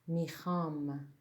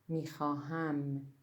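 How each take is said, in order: First: The word is said in a short, reduced form. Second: The word is said in its full form. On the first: This is the everyday spoken form. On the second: This is the formal written form.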